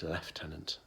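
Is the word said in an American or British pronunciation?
British. It is said with a British pronunciation. The speaker calls it right. "it's lieutenant in um, in that respect"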